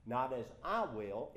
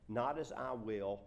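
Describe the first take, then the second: First: "I" punched with a raised pitch; louder, strong stress on "I"; emphatic I. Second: Loud, slow, even weight on "not as I will"; projected verse without singling out "I"; scripture reading. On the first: Shown as a demonstration. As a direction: hit the word "I" hard. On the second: Acted. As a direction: read "not as I will" deliberately.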